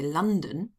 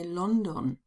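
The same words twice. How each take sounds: First: It is pronounced with an English accent. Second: It is pronounced with a German accent. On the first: "Germans don't say" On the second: "they say"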